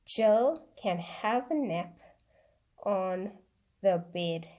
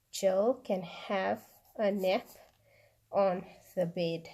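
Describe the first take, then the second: First: Said in the usual way. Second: Slow, clear dictation pace; read slowly. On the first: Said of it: "I'm going to read the sentence out first". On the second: Shown as a demonstration. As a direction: let each word land slowly for writing. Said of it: "then I will read it slowly again".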